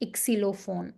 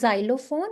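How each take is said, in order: First: The word is pronounced the German way. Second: The word is pronounced the English way. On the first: The speaker calls it right. "it's Xylophon" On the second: The speaker calls it wrong. "not Xylophone"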